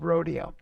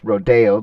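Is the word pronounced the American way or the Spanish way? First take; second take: American; Spanish. First: The word is said with an Americanized pronunciation. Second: The word is said with a Spanish pronunciation. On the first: "the more Americanized of rodeo" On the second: "the Spanish um, um, pronunciation"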